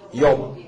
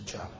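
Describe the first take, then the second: First: The name begins with a Y sound. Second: The name begins with a J sound. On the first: This is how the region of origin says it. "이게 팔레스타인 이 지역에 하면 욥이라고 그런다고요" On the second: This is how Americans say it. "미국 사람들은 Job이라고 그러죠"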